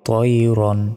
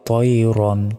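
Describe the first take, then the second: The two takes are said the same way.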